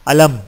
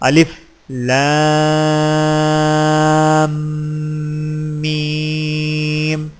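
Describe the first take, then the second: First: The letters are blended into one short word. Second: Each letter is named separately by its full name. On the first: The speaker calls it wrong. "इस तरह नहीं होगा" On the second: The speaker calls it right. "बल्कि इस तरह होगा"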